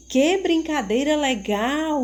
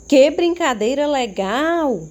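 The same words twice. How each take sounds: First: Higher, lively exclaiming read; teacher repeats the exclamation with enthusiasm; enthusiastic exclamation. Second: Higher and louder, full of excitement; teacher demos an excited exclamation; enthusiastic exclamation. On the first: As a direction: show the excitement in the line. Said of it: "Entusiasmo ao ler a frase". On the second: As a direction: read it like a thrilled child at play. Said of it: "Observaram como eu li a frase?". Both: Shown as a demonstration.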